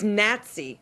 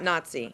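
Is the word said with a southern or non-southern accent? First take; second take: southern; non-southern. First: The word is said with a southern Tennessee accent. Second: The word is said without a southern accent. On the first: The speaker calls it right. "a southern sort of Tennessee version" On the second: The speaker calls it wrong. "not Nazi"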